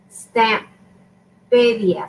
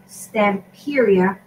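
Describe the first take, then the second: First: "Stamperia" said very slowly, Spanish-style; Spanish pronunciation. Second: Said in the usual way. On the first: Shown as a demonstration. Crafter attempting the brand name for viewers, Spanish pronunciation. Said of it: "I'm pronouncing it in Spanish". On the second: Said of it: "I think they pronounced it".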